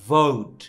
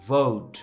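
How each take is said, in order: Both takes have the same delivery.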